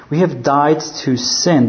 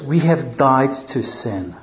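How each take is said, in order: First: "have" hit firmly, "died to sin" falling after it; stress on have. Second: "We" leaned on, the rest slowed and falling; stress on we. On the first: Preacher drawing the conclusion for the congregation, stress on "have". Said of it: "That's his conclusion". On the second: Preacher reading the verse to the church, slow with stress on "We". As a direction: press on "We", then let "have died to sin" fall. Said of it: "But he starts with this". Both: Shown as a demonstration.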